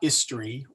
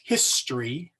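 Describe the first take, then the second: First: The starting H sound is left silent. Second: The starting H sound is clearly pronounced. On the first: The speaker calls it wrong. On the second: The speaker calls it right. "H is always pronounced"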